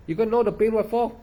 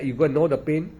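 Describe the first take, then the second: First: Raised, scoffing retort; scoffing at the other monks' method, up high; mocking disbelief. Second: Said in the usual way. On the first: Real, not acted. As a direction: pitch it up in scornful disbelief. Mocks the instruction he quoted.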